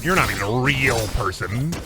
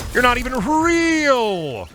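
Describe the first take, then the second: First: Said in the usual way. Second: High, slow, stretched-out jeer at the enemy; shrill mock taunt. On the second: Mocking a bot opponent in a game, high and slow. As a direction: drag out real way up high like a playground taunt.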